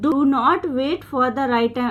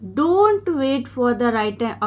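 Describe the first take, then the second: First: 'Do not' is said as two full words. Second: 'Do not' is shortened to one syllable, 'don't'. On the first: "डू नॉट full form है" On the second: "डोंट contraction है"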